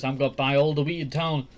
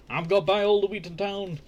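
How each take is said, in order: First: Mock mother, first take. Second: Repeated line pitched higher in a mock greedy mother voice. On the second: Greedy mother gloating over gold, repeated higher in mock voice. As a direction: say it again, higher and more gleeful. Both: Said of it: "his mother's just saying".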